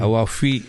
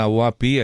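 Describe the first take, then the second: First: The middle consonant is an f sound. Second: The middle consonant is a p sound. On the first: The speaker calls it right. "ഔവാഫി ആണ്" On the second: The speaker calls it wrong. "അത് ഔവാപ്പി അല്ല"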